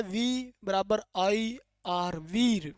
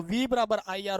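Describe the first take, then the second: First: Slow spelling-out. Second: Said in the usual way. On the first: Shown as a demonstration. Teacher turning the formula into a mnemonic, spelled out slowly. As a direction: stretch वी and IR letter by letter.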